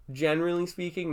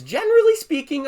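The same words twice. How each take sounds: First: Said in the usual way. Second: "generally speaking" pitched much higher and louder; "generally speaking" said high and loud, like a pointed rebuttal; emphatic generally speaking. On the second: Real, not acted. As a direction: lift "generally" high and lean on it. Repeated phrase as rebuttal opener.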